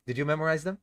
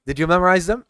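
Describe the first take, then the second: First: Soft, tired question; a weary, low-energy check on the class; tired ask. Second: Louder, rousing question; livelier ask. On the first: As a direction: ask it quietly, worn out. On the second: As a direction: shake off the tiredness and ask it out loud. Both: Real, not acted. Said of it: "You can tell I'm tired".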